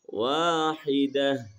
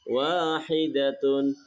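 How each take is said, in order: First: The word ends in a silent -ah sound. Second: The word ends with a full -atun ending. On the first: The reader stops on this word. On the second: The reading continues without a stop.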